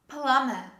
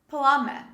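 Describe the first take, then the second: Both takes have the same delivery.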